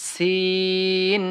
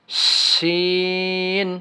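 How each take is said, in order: First: সিন held very long, light; thin drawn sin. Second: শিন held very long with breath; airy drawn shin. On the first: Teacher contrasting thin সিন for learners. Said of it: "সিন হরফটা পাতলা হবে". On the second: Teacher showing airy শিন beside সিন. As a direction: let air flow through শিন. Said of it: "বাতাসের সাথে হবে". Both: Shown as a demonstration.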